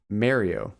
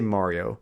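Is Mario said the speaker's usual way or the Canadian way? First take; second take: Canadian; usual. First: It is said the Canadian way. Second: It is said the speaker's usual way.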